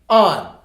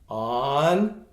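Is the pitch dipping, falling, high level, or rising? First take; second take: falling; rising. First: The pitch falls sharply from high. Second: The pitch rises from mid to high. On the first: "On on fourth tone" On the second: "On on second tone"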